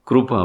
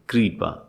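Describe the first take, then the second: First: The first syllable is said like 'kru'. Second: The first syllable is said like 'kri'. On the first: This is how it is said in Gujarat. "Gujarat में से कृपा बोलते हैं, क्रू।" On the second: This is how it is said in northern Hindi-speaking states. "हमारे उत्तर प्रदेश में, मध्य प्रदेश में, बिहार में कृपा बोल"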